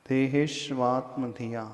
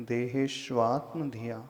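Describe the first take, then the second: No difference in how they are said.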